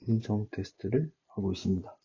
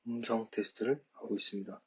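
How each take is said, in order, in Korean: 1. 음성이 왜곡 없이 선명하게 들려요. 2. 음성이 크지만 왜곡되어 들려요. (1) "티 십삼이 가장 선명도가 좋고 왜곡이 없기 때문에" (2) "소리는 굉장히 크게 들리고 명확하게 들리긴 합니다만 좀 목소리에 왜곡이 있었기"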